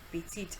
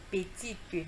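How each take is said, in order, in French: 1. Le e final est muet. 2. Le e final se prononce comme une voyelle.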